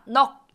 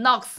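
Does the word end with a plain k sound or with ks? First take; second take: k; ks. First: Only the first consonant is sounded, ending in k. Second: Both consonants are sounded, ending in ks. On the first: The speaker calls it right. "넉 이렇게 발음을 한다는 거죠" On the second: The speaker calls it wrong. "이게 아니라"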